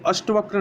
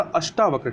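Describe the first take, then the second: First: अष्टवक्र with short vowel after sht; wrong form. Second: अष्टावक्र with long aa after sht; correct form. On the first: Teacher rejects the error, अष्टवक्र with short "ta". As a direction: say अष्टवक्र as "ashta-vakra", short middle a. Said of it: "अष्टवक्र नहीं होता". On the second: Teacher corrects for learners, अष्टावक्र with long "taa". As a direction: say अष्टावक्र as "ashtaa-vakra". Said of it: "आ की मात्रा होती है". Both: Shown as a demonstration.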